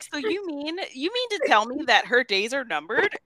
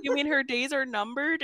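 First: High-pitched, hammed-up question with a grin; smiling bad acting. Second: Higher-pitched incredulous question, retold; mock disbelief. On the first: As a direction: mimic an actor grinning through grave news. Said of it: "smiling the entire time". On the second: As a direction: echo the news back as a question. Retold shocked question from Hazel.

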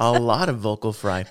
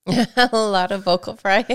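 First: Creaky, laughing vocal fry. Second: Vocal fry. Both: Shown as a demonstration.

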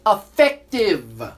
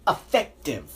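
First: Effective drawn out slowly and louder; stress on effective. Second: Said in the usual way. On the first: Shown as a demonstration. Host repeats the vaccine claim, dwelling slowly on Effective. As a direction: lean hard on Effective, slowly.

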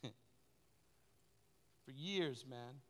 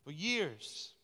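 First: A soft laugh into "years", quiet and drawn out; laughing softly. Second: Said in the usual way. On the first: Real, not acted. Pastor remembering the years of service, laughing quietly. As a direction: chuckle through "for years".

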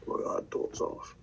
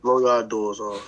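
First: Breathy whispered teasing chant; whispered taunt. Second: Drawn-out teasing chant, low; slow mock taunt. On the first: Pretend. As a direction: hiss the taunt under his breath. Teasing catchphrase repeated. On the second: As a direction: stretch the taunt out slowly to needle him. Teasing catchphrase at rival.

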